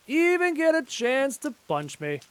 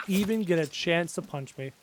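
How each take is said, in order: First: High, drawn-out playful echo; mock repeat. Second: Said in the usual way. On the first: Echoing his own boast mid-fight, high mock repeat. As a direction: repeat it slowly in a raised pitch.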